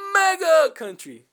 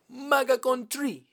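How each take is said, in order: First: It is said in an American accent. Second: It is said in a Nigerian accent.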